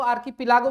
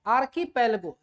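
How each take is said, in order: First: आर्कीपिलागो said aar-kee-pi-LAA-go, with an i and a long aa; the variant आर्कीपिलागो, aar-kee-pi-laa-go; archipelago, other way. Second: आर्कीपेलगो said aar-kee-PEL-go, with a short e and no a before go; the standard Hindi reading आर्कीपेलगो, aar-kee-pel-go; archipelago, first way. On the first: Teacher shows students how some people say it, आर्कीपिलागो as aar-kee-pi-laa-go. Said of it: "कुछ लोग उसको आर्कीपिलागो भी बोलते हैं". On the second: Teacher tells students the usual way to say it, आर्कीपेलगो as aar-kee-pel-go. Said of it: "या कुछ लोग उसको आर्कीपिलागो भी बोलते हैं".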